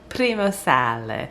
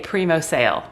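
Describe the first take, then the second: First: It is said in an Italian accent. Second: It is said in a plain English accent. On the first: The speaker calls it right. "I have to say it with the Italian accent" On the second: The speaker calls it wrong. "it is not sexy if you say primo sale. It don't work"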